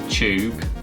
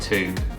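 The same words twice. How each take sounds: First: The word begins with a 'ch' sound. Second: The word begins with a plain 't' sound. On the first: "C H U B E for tube" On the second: "T O O B for tube"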